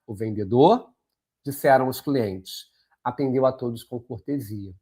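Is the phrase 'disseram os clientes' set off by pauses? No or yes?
yes. Pauses set off the inserted phrase on both sides. The speaker calls it right. "Vamos ler agora com a vírgula e com calma"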